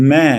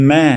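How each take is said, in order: The two takes are said the same way.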